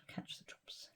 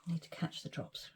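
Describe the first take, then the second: First: Faint trailing whisper; barely audible whisper. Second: Breathy whisper, held breath. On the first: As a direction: let it fade almost to nothing. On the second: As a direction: whisper it under your breath. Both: Real, not acted.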